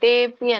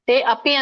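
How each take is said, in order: First: The two words are joined into one. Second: The two words are kept separate. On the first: The speaker calls it right. "ತೇಪಿ ಅಂತ ಹೇಳಿ" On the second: The speaker calls it wrong. "ತೇ ಅಪಿ ಅಂತ ಹೇಳ್ಬೇಡಿ"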